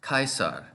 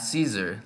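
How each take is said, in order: First: The word begins with a hard k sound. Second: The word begins with an s sound. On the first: This is the reconstructed ancient Latin pronunciation. "with a hard k" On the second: This is the modern English pronunciation. "like we say in English"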